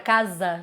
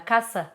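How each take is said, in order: First: It is said with a Portuguese pronunciation. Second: It is said with a Spanish pronunciation. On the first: The speaker calls it wrong. "que não é casa" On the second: The speaker calls it right. "Pra eles é La Casa"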